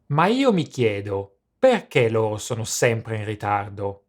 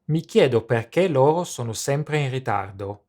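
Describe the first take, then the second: First: It is said with disapproving, disappointed intonation. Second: It is said in a plain, neutral tone.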